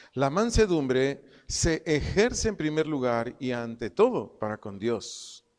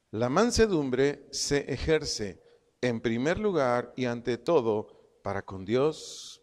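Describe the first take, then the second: The two takes are said the same way.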